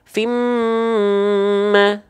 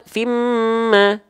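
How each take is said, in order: First: The nasal m is held noticeably long. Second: The nasal m is held only briefly. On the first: It is timed by the nasal-hold measure. "kalau dua harokat kadar guna" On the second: It is timed by the vowel-lengthening measure. "Kalau dua harokat mad"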